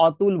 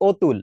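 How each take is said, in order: First: অতুল mispronounced as "AW-tul"; wrong open অ. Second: অতুল said as "OH-tul"; correct closed ও. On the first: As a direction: open the first vowel of অতুল to "aw". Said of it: "আমরা অতুল বলি না". (অতুল, ভুল করে খোলা অ দিয়ে) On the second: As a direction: round the first vowel of অতুল to "oh". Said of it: "আমরা এটাকে বলি ও". (অতুল, ও-এর মতো শুরু) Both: Shown as a demonstration.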